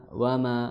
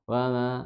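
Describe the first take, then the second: The two takes are said the same way.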